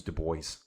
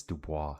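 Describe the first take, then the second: First: Put-on "Du Bois" said the English way, like doo boys; "Du Bois" with an English boys ending. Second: "Dubois" said the French way, doo-bwah; "Dubois" ending in a soft bwah, not boys. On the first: Young guy at the bank giving his name, English "Du Bois". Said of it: "you don't pronounce it as Du Bois". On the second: Retold or imitated. Young guy correcting his dad's version with French "Dubois". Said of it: "it's Dubois".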